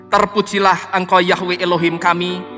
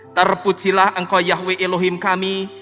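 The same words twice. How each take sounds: No difference in how they are said.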